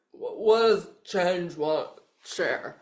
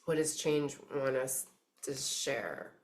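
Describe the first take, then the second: First: Slow, loud mock of a fumbled question; mock your own muddled words, breaking into a laugh; self-mocking garble. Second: Said in the usual way. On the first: Reader teases herself for not speaking English, self-mocking garble. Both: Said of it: "Like, speak English, me".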